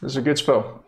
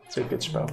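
First: Said in the usual way. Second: Soft unvoiced whisper. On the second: Shown as a demonstration. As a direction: breathe it as an aside. Repeated in a whisper.

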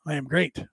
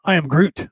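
First: Said in the usual way. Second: "I am Groot" said like the movie line instead of great; "Groot" with a long oo, punning on great; deadpan "I am Groot" slipped in for "I am great"; Groot pun. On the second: Pretend. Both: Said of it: "you would think you're the greatest".

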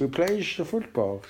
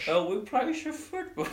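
First: A calmer take on the fake Dutch accent; Steve McLaren fake Dutch accent. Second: Higher, mock Dutch-English accent; English coach faking a Dutch accent; Steve McLaren fake Dutch accent. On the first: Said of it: "that's how I would do". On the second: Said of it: "Steve McLaren".

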